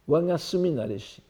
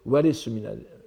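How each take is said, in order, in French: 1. Le premier mot se prononce wanga. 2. Le premier mot se prononce ware. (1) "Excuse-moi, c'est pas wanga" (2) "il faut lire plutôt ware suminareshi"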